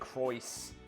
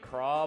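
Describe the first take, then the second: First: The name ends with an s sound. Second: The name ends on a vowel, no s. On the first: The speaker calls it right. "they actually just straight up pronounce it Croyce with the the S" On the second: The speaker calls it wrong. "you'd think it would be Craw"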